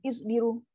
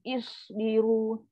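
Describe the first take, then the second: First: The s is cut short without a hiss. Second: The s is hissed out with audible air. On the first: The speaker calls it wrong. "Tak sempat lagi sifat sofir keluar, kita dah terus cara potong. ... Salah" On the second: The speaker calls it right. "Lepaskan angin"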